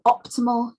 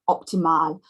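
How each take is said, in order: First: The stress falls near the start of the word. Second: The stress falls on the last syllable.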